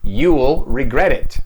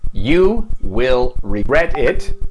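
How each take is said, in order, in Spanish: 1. 'will' se acorta y se une al pronombre. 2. 'will' se dice como una palabra completa y separada.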